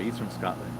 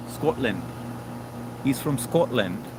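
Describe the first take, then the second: First: Said in the usual way. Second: Slow Scottish "Scotland" with rounded o; light Scottish imitation; mock Scottish accent. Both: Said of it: "but I love the accent".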